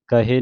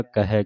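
First: ਕਹੇ with a closed "e" ending; mispronunciation demo. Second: ਕਹਿ with an open "ai" ending; correct pronunciation. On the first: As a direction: say ਕਹੇ as "ka-hay", narrow final vowel. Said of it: "ਕਹੇ ਨਹੀਂ ਕਹਿਣਾ". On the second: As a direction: say ਕਹਿ as "ka-hai", wide final vowel. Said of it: "ਦਲਾਵਾਂ ਦੇ ਨਾਲ ਪੜ੍ਹਨਾ ਹੈ". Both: Shown as a demonstration.

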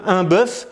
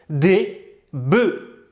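First: "bœuf" with open eu and sounded f; singular pronunciation. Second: "des bœufs" as "dé beu", silent f; plural pronunciation. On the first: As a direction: slowly sound the final f in "bœuf". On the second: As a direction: drop the f and close the vowel in "bœufs". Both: Shown as a demonstration. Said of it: "ça se prononce pas pareil".

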